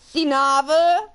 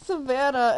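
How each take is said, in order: First: The name's middle is garbled, sounding like Sinava. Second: The name is said in its usual form, Savannah. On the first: The speaker calls it wrong. "I pronounced the middle half wrong, and I go" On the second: The speaker calls it right. "they're like, it's Savannah"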